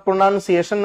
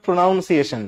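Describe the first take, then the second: First: "pronunciation" said pro-NUN-see-AY-shun, with nun not noun; correct pronunciation. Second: "pronunciation" said pro-NOUN-see-AY-shun, with noun as in pronounce; the common mistake: "pronunciation" with noun in the middle; wrong pronunciation. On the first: Teacher modelling the correct "pronunciation" as nun-see-ation. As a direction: model "pronunciation" carefully, the middle vowel as in nun. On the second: Teacher showing students the wrong "pronunciation" with noun. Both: Shown as a demonstration. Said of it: "উচ্চারণটা pronunciation, not pronunciation".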